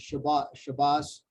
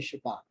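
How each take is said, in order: First: It is said the Ashkenazic way, ending in s. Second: It is said the Israeli way, ending in t. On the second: This is the modern Israeli pronunciation. "We would say Shabbat"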